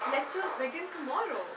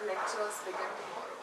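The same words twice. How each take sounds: First: The voice sounds cheerful and happy. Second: The voice sounds low and disappointed. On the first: The news is welcome. "if it's a happy tone" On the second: The news is unwelcome. "or a sad tone"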